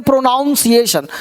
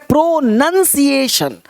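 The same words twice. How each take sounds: First: "प्रोनाउंसिएशन" with NOUN as the second syllable; common mispronunciation. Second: "प्रोनंसिएशन" slowly, with NUN as the second syllable; correct pronunciation. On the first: Teacher showing learners the common misreading, mispronounced "प्रोनाउंसिएशन" with "noun". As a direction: say "प्रोनाउंसिएशन" with an "ow" vowel, as in pronounce. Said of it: "सबसे पहले इसे लोग पढ़ते हैं". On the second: Teacher correcting learners' misreading, careful "प्रोनंसिएशन" with "nun". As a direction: say "प्रोनंसिएशन" with a short "uh" vowel, not "ow". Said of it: "प्रोनाउंसिएशन नहीं, एक है".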